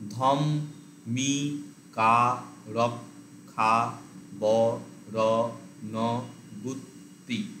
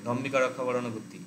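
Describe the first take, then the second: First: It is split into separate syllables with breaks. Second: It is said quickly in one unbroken run. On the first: "কেটে কেটে বলতে ... এইভাবে করা যায় এটাকে" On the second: "এরকম একবারে ... এরকম দ্রুত আনা যায়"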